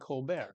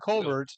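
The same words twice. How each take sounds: First: The name is said in a French way. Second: The name is said in an English way. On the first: The name is meant to sound French. "changed the pronunciation of his last name to make it sound French" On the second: This was the name's original pronunciation. "He was Stephen"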